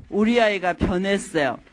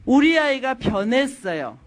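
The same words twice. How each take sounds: First: Said in the usual way. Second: Slow, stressed 우리 아이가 변했어요; emphatic heading. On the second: Shown as a demonstration. Speaker announces the fourth point to the audience, slow and emphatic. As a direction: announce the topic with weight.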